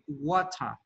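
It is said in a British accent. "Un británico va a decir water"

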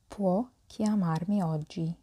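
The voice falls at the end. It states that he can call today. "يمكنه الاتصال بي اليوم"

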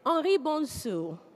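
The name is said in a French accent. "my French accent"

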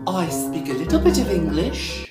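It is spoken in an English accent. "I can't do an English accent"

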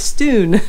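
The vowel is a Scottish 'oo' sound.

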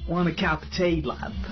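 It is spoken in an Irish accent.

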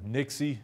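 The word ends in an 'ee' sound.

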